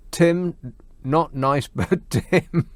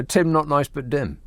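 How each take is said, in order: First: Spaced-out phrases with pauses and a chuckle; halting, amused. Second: Said in the usual way. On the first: Real, not acted. Host reads out a listener's nickname for Tim, halting and amused. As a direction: break it into pieces, laughing before the end.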